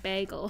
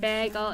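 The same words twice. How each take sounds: First: Said in the usual way. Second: "Bagel" with a different first vowel; altered "Bagel" pronunciation. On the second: Shown as a demonstration. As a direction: say "Bagel" the other accent's way. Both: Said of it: "Bagel instead of bagel".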